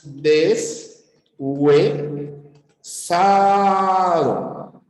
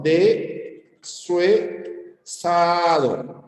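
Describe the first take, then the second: First: "deshuesado" split very slowly as des-hue-sado; separación silábica correcta. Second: "Deshuesado" cut wrongly as de-sue-sado, very slowly; separación silábica incorrecta. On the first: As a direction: stretch "deshuesado" into des, hue, sado, closing the first chunk on the s. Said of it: "Pronunciamos deshuesado. Así". ("deshuesado" muy lento y separado: des-hue-sado) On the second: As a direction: say "Deshuesado" in three slow chunks, the s joined to hue: de-sue-sado. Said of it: "No me vas a separar así". ("Deshuesado" mal separado, muy lento: de-sue-sado)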